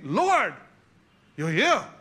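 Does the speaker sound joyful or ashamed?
ashamed. It sounds ashamed and dismayed.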